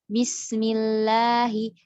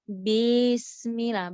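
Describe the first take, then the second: First: The vowel after b is short. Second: The vowel after b is lengthened.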